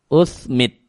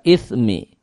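First: The first vowel is a 'u' sound. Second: The first vowel is an 'i' sound. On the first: "hamzahnya di dhammah. Berarti usmit" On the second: "Hamzahnya dikasrah ith"

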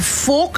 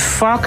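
First: The word is said with a fully Dutch pronunciation. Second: The word is said with an English pronunciation. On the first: It is deeply offensive. "dan raakt het je in je ziel" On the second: It is only mildly offensive. "dan is het oké, een beetje"

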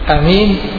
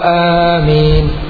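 First: The first vowel is short. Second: The first vowel is long. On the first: The speaker calls it wrong. "بدون مد على وزن يمين" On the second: The speaker calls it right. "فالمعتمد هو آمين"

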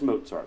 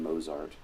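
First: The middle consonant is a ts sound. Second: The middle consonant is a plain z sound. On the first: The speaker calls it right. "it is Mozart with a TS sound" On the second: The speaker calls it wrong. "at least a quarter of my students consistently called him Mozart"

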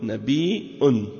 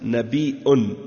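First: The middle has a glottal stop. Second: The middle has a glottal stop.

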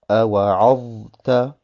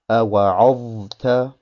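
The two takes are said the same way.

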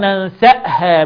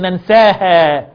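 First: A glottal stop is kept after the s. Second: A long a vowel replaces the glottal stop. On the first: The speaker calls it right. "الهمزة علامة جزم" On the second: The speaker calls it wrong. "ما قولش ننساها"

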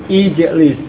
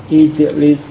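Both takes have the same delivery.

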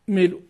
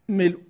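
Both takes have the same delivery.

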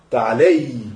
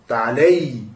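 No difference in how they are said.

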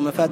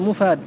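First: The first vowel is pronounced as 'a'. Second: The first vowel is pronounced as 'u'. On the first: The speaker calls it wrong. "مما يغلط فيه أن يقال" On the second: The speaker calls it right. "هو مفاد بالضم"

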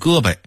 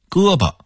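First: It is said with local dialect pronunciation. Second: It is said with standard Mandarin pronunciation.

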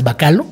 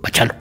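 First: The middle consonant is a k sound. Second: The middle consonant is a ch sound. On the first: The speaker calls it wrong. "siempre hemos asumido que es Bacalo" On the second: The speaker calls it right. "Se dice Bachalo"

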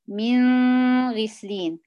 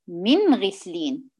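First: The nasal sound is held too long. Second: The nasal sound is kept short. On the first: The speaker calls it wrong. "بيعملوا غنة زايدة" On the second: The speaker calls it right. "لا"

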